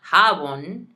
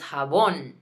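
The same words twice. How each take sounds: First: The stress is on the first syllable. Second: The stress is on the second syllable. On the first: The speaker calls it wrong. "not jabón" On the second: The speaker calls it right. "we put the emphasis on it. So it's jabón"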